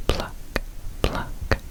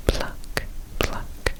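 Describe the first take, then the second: No difference in how they are said.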